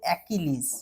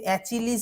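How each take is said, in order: First: The name is said with a 'k' sound. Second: The name is said with a 'ch' sound. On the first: The speaker calls it right. "এটা হচ্ছে অ্যাকিলিস" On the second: The speaker calls it wrong. "এটা কিন্তু অ্যাচিলিস উচ্চারণ করবে না"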